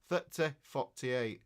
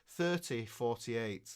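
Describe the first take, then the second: First: It is said in a Yorkshire accent. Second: It is said in Queen's English.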